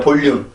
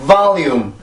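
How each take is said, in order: First: It is said with Korean sounds, read from spelling. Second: It is said with English sounds and stress. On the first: The speaker calls it wrong. "영어 발음을 들어보면 볼륨은 아니죠" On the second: The speaker calls it right. "이게 이 단어에 가진 발음인데"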